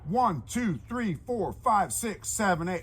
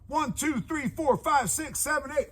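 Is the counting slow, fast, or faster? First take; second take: fast; faster. First: The numbers are counted at a quicker pace. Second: The numbers are counted at the quickest pace.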